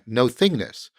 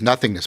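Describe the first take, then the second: First: It is split into two parts. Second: It is said as one word. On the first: It means not being any particular thing. "if you put the hyphen back in, you get the original intent" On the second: It means the absence of anything. "normally pronounced as nothingness"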